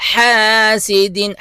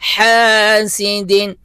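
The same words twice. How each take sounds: No difference in how they are said.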